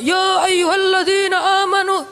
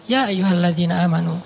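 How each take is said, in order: First: It is said loudly, like a shouting preacher. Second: It is said calmly in a relaxed tone.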